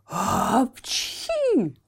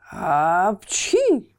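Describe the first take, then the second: First: Higher sneeze falling away; hammed-up high sneeze. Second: Louder sneeze with a crack; hammed-up loud sneeze. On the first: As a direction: sneeze again, pitched up. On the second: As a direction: sneeze it out hard. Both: A narrator's reading. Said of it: "с треском чихал".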